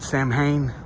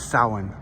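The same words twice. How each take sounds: First: It is said with an anglicized, spelling-based pronunciation. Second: It is said with the Celtic pronunciation. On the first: This is how some people say it. "Some people pronounce it Samhain" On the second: This is the original Celtic way to say it. "the Celtic pronunciation is Samhain"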